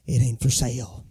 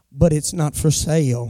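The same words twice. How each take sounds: First: Much lower, softer, flat-out final; firm refusal. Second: Said in the usual way. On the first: Shown as a demonstration. Teaching the church how to firmly refuse, lower and softer. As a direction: drop the voice and shut the deal down. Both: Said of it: "sometimes you just gotta say".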